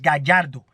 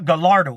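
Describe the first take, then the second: First: It is said with a Spanish pronunciation. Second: It is said with an English-speaker pronunciation. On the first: The speaker calls it right. "It's Gallardo" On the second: The speaker calls it wrong. "It's not"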